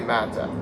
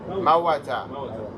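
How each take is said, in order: First: The word has two syllables without a 'w' sound. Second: The word has three syllables with a 'w' sound. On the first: The speaker calls it right. "We say mata" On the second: The speaker calls it wrong. "That's not how we actually say it in Arabic"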